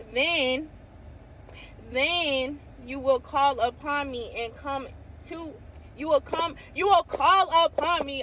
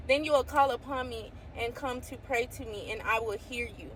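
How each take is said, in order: First: Rising, louder with excitement; carried away by the verse; excited reading. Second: Said in the usual way. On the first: Real, not acted. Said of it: "I get excited". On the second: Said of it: "Okay, I'm sorry".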